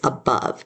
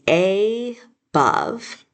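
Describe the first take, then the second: First: The first vowel is a weak 'uh' sound. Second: The first vowel is a full 'ay' sound. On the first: "when we really say it" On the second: "you might sound it out and say"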